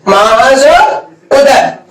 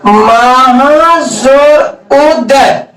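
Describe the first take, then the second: First: Said in the usual way. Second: Very slow, drawn-out dictation of the example; teacher spelling it out syllable by syllable. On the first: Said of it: "repeats the example at normal pace". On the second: Shown as a demonstration. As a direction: stretch each sound of "महाजोर उदय" out slowly for the class. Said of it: "teacher dictates the example".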